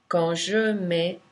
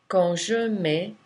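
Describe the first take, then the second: Both takes have the same delivery.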